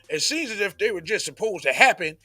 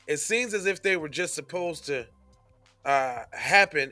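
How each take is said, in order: First: It is read in an imitation of another voice. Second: It is read in the speaker's ordinary voice.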